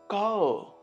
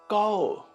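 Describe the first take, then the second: No difference in how they are said.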